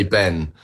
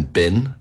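First: Ben with an open short e, as in pen; English vowel in Ben. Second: Bin with the e raised to a short i; Kiwi vowel in Bin. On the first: Shown as a demonstration. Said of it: "'cause we say Ben". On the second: Retold or imitated. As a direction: say Bin as New Zealanders say Ben. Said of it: "everyone was calling Ben Bin".

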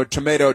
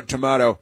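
First: "Tomato" said as to-MAY-to with a long ay; mocking her first tomato as to-MAY-to; tomayto. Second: "tomato" said as to-MAH-to with a broad ah; mocking her second tomato as to-MAH-to; tomahto. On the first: Host quoting her, saying "Tomato" as to-MAY-to. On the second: Host quoting her, saying "tomato" as to-MAH-to. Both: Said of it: "and then she says".

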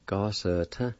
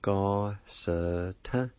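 First: Said in the usual way. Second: Ga-sa-tin drawn out very slowly; slow, careful Ga-sa-tin with a rise at the end; slow pronunciation demo. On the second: Shown as a demonstration. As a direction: stretch every syllable of Ga-sa-tin. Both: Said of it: "it's pronounced like this".

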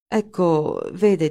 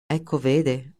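First: Halting "Ecco, vede" that breaks off, trailing away; hesitant. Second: "Ecco, vede" thrown back in a mocking echo, stress on "ecco"; mock the other man's stalling words; sarcastic mimicry. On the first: Acted. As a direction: start the excuse, then stall. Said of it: "e si interruppe". (esitante, "Ecco, vede" detto a mezza voce e interrotto) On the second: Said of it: "sbottò Linder sarcastico". (ripetizione sarcastica di "Ecco, vede", accento su "ecco")

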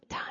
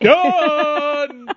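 First: Barely audible little murmur; quiet, to yourself. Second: High, long-held triumphant holler; obnoxious. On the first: Showing listeners the habit of saying it privately, quiet. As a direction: say it softly under your breath. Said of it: "do it quietly to yourself". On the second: Announcing a finished task to everyone, obnoxious. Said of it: "it's gonna be obnoxious". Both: Shown as a demonstration.

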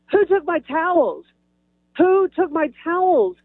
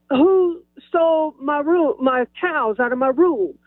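First: Raised-pitch demand, only mildly loud; re-enacted calling out. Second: Hammed-up outrage. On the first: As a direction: call it out higher, like asking down a hallway. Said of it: "I said it a little loud". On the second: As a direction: draw it out for comic indignation. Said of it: "I didn't say it quite like that".

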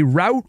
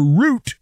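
First: "route" with the OW vowel of out; "route" pronounced to rhyme with doubt; ROUTE rhyming with out. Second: "route" with a long OO vowel; "route" pronounced to rhyme with flute; ROUTE sounding like root. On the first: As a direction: say "route" like "rout", rhyming with shout. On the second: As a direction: say "route" like "root", rhyming with boot. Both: Shown as a demonstration. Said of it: "depending on where you grew up".

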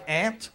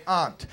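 First: "aunt" said like the insect "ant"; ANT pronunciation. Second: "aunt" with a broad AH vowel; AHNT pronunciation. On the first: Comic contrasting how people say "aunt", as ANT. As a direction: say "aunt" with the vowel of "cat". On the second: Comic contrasting how people say "aunt", as AHNT. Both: Shown as a demonstration. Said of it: "Sometimes it's just pronunciation".

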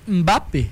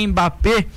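First: "Mbappé" with the M almost mute; correct pronunciation. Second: "Mbappé" with a clearly voiced "em" at the start; Brazilian pronunciation. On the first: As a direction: hum straight into the B of "Mbappé". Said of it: "mas é Mbappé". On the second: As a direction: open "Mbappé" with a full vowel before the M. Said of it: "a gente aqui no Brasil é". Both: Shown as a demonstration.

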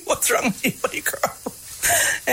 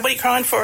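First: Hushed fatherly question. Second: Said in the usual way. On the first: Retold or imitated. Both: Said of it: "he said".

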